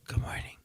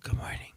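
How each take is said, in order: First: It is said in a weak, whispered voice. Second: The same.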